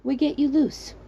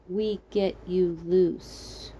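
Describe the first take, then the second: First: Put-on "We get you loose" in a light foreign accent, pitched up on "you"; the stranger's halting foreign-accented "We get you loose". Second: "We get you loose" said very slowly, each word drawn out as it dawns; slow realizing repeat. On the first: Rescuer reassures girl stuck in well, light foreign accent. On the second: Girl finally understands the rescuer's words, slow realizing repeat. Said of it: "It sounded much different from down there". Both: A narrator's reading.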